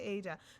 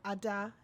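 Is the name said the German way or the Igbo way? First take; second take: German; Igbo. First: The name is said the German way. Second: The name is said the Igbo way. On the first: "Germany they say Ada" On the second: "if you call her Ada, you're right because she's the first daughter"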